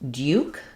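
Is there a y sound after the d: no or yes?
yes. A y sound follows the d. "which is more um, the British way"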